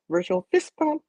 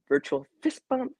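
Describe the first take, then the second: First: Squeaky fist bump call; high playful. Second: High upbeat. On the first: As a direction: pitch it way up, playful. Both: Shown as a demonstration. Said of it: "let me do it like this".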